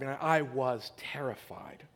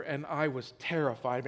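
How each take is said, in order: First: Breathy whispered confession, voice dropped away. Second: Said in the usual way. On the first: Real, not acted. Pastor recalling his childhood terror, in a whisper. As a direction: whisper it as if still scared.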